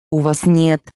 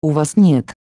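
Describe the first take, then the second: No difference in how they are said.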